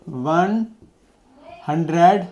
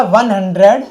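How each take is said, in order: First: Each word drawn out, long gap between one and hundred; dictating word by word at writing speed; slow dictation while writing. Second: Said in the usual way. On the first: Shown as a demonstration. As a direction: say one, pause, then hundred slowly and softly, as if writing it down. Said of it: "एक में लिख के दिखा दें". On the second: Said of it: "words में".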